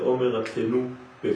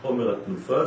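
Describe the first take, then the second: First: The last word splits off as 'peh' after a break. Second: The last word ends with the syllable 'fa'. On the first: It means a mouth is given for speech. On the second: It names the waved offering of the omer.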